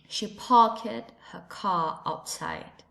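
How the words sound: It is said in a British English accent. "And in British English"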